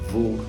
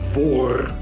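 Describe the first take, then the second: First: The R is soft and barely pronounced. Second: The R is harsh and rasped in the throat. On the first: This is how it sounds in the south. "where the R is not that much pronounced" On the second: This is how it sounds in certain regions. "The R is much more here in your throat"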